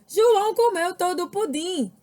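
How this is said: The voice is emphatic and sounds astonished. It expresses astonishment. "Estou exclamando algo"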